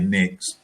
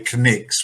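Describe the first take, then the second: First: The word begins with an N sound. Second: The word begins with a K sound. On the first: The speaker calls it right. "we say Knicks" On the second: The speaker calls it wrong. "We don't say Knicks"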